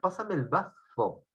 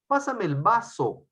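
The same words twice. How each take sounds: First: The consonant in 'vaso' is a th sound. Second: The consonant in 'vaso' is a plain s sound. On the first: The speaker calls it right. "pero debe ser" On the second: The speaker calls it wrong. "ustedes dicen"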